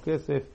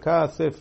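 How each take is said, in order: First: The first vowel is an 'eh' sound. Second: The first vowel is an 'ah' sound. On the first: The word stands in its ordinary, non-pausal form. The speaker calls it wrong. "ולא כסף" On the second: The word stands at a major pause in the verse. The speaker calls it right. "אתה אומר כסף"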